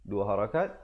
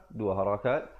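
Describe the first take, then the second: No difference in how they are said.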